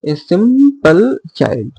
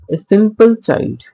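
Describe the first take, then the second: First: Put-on a simple child said slowly, each syllable of simple set apart; slow scanned reading. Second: Said in the usual way. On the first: Shown as a demonstration. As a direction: spell out the beat of a simple child. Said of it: "It can be divided into". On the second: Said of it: "it is a line from We Are Seven".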